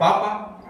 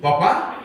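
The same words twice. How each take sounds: First: "Papa" with the stress on the first "Pa", no final accent; stress on the first syllable. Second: "Papá" with the stress on the final "pá", rising like a question; stress on the last syllable. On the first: Pastor shows the same word without its accent, "Papa" stressed on the first syllable. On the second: Pastor tells the congregation to contrast accent and no accent, "Papá" stressed on the end. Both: Shown as a demonstration. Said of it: "Una palabra que lleva acento y una palabra que no lleva acento".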